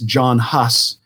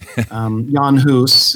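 First: The name is said with English-style sounds. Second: The name is said with Czech-style sounds. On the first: The speaker calls it wrong. "In English, we often hear that pronounced as John Huss" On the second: The speaker calls it right. "Jan Hus is better"

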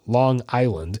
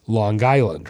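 First: The two words are split apart. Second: The two words are run together. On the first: The speaker calls it wrong. "it's not Long Island" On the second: The speaker calls it right. "It's one word"

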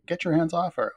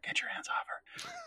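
First: It is said at normal volume. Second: It is said more quietly.

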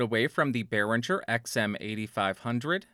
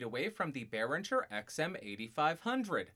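First: The voice is close, with little room sound. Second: The voice is distant, with the most room sound. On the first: "About 1 foot away" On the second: "about 4 feet away"

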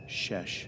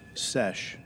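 First: The word begins with an sh sound. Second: The word begins with a plain s sound. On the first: The speaker calls it wrong. "Not a shesh" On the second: The speaker calls it right. "And it's sesh"

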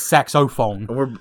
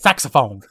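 First: The word is pronounced in a careful way. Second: The word is pronounced in a sloppy way. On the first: The speaker calls it right. "it's saxophone" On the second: The speaker calls it wrong. "here's where speaking badly gets in my way, because I say it saxophone"

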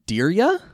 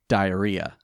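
First: It is said with three syllables, 'dee-ree-a'. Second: It is said exactly like the word 'diarrhea'. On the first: This is how the speaker first read the name. The speaker calls it wrong. "I pronounced it Diria" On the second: This is how the name is actually pronounced. The speaker calls it right. "It is pronounced diarrhea"

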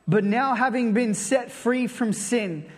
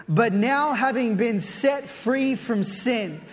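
The two takes are said the same way.

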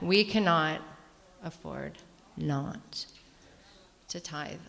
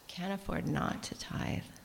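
First: It is said noticeably louder and more forcefully. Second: It is said at a normal speaking volume. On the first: "I'm going to say it louder" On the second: "I just said that out loud"

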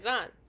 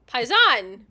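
First: It is said with little excitement. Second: It is said with more excitement.

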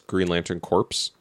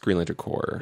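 First: The last word ends with a sounded p and s. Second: The last word ends in a plain r sound. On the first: The speaker calls it wrong. "My favorite one that I mispronounced for years" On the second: The speaker calls it right. "It's Green Lantern Corps"

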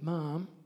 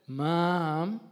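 First: The word is said short. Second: The word is drawn out longer.

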